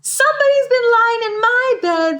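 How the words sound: It is said in a small, little voice.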